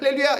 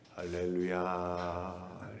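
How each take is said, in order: First: It is said quickly and lightly. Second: It is said slowly and drawn out.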